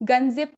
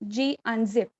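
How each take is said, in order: First: The G is blended into one word. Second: The G is said as a separate letter. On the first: The speaker calls it wrong. "गनजिप command इसको नहीं कहते हैं" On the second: The speaker calls it right. "जी अनजिप और जी जिप इस तरीके से इन commands को pronounce किया जाता है"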